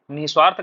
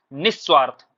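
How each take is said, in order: First: निस्वार्थ said as nih-swaarth; wrong single s. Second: निस्वार्थ said as nis-swaarth; correct double s. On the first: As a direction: run निस्वार्थ through with no doubled s. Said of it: "कभी मत बोलिए आगे". (निस्वार्थ, निः-स्वार्थ जैसा) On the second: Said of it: "जब भी बोलिएगा तो क्या बोलना है". (निस्वार्थ, निस्स्वार्थ जैसा) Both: Shown as a demonstration.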